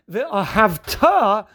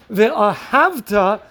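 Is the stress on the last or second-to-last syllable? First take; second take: last; second-to-last. First: The stress is on the last syllable. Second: The stress is on the second-to-last syllable. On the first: It commands that you should love. The speaker calls it right. "stressing the last part of the word, which is what we call milara" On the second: It reports that you loved in the past. The speaker calls it wrong. "The ahavta means, and you loved"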